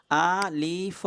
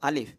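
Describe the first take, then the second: First: আলিফ stretched into separate a, li, f sounds; drawn-out syllables. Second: Said in the usual way. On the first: Shown as a demonstration. Teacher counting the letters in the word, drawn-out syllables. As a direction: say আলিফ slowly, sounding out each of its three parts. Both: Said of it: "এই লম্বাটা উচ্চারণ করতে".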